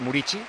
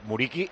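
First: The last syllable begins without a hard k sound. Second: The last syllable begins with a hard k sound. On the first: The speaker calls it right. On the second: The speaker calls it wrong.

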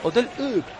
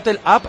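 First: Up is pronounced the French way. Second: Up is pronounced the English way. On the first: "le decía hotel Up" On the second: "lo que era hotel Up en inglés"

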